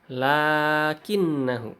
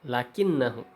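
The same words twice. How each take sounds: First: The vowel after the first consonant is long. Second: The vowel after the first consonant is short. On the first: The speaker calls it right. "jadi setelah lam itu ada ada mad" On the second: The speaker calls it wrong. "Kalau kita baca lakinnahu"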